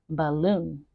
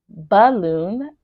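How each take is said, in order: First: The weak first syllable is short and quick. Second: The weak first syllable is exaggerated and drawn out. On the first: "we will normally say balloon" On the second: "I'm just emphasizing it right now so you can hear the schwa sound"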